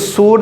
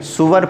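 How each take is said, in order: First: The word is one syllable with a long 'oo'. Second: The word is two syllables with a 'w' sound. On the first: The speaker calls it wrong. "इसको सूर नहीं पढ़ेंगे" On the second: The speaker calls it right. "सुवर पढ़ेंगे"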